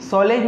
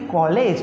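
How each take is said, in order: First: The word begins with an s sound. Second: The word begins with a k sound. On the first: The speaker calls it wrong. "सॉलेज नहीं" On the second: The speaker calls it right. "नहीं कॉलेज"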